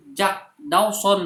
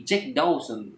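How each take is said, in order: First: "Jack Dawson" with an open A in JAK, slow and higher; the wrong take, "Jack" read as spelt, JAK; "Jack Dawson" the local way, drawn out and raised; Indonesian reading. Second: "Jack Dawson" corrected to JEK DOWSON, slow; the right take, "Jack" with an English E; "Jack Dawson" said like a westerner, slowly; English pronunciation. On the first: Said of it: "mereka akan mengatakan, "Bukan". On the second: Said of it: "tapi Jack Dawson". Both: Retold or imitated.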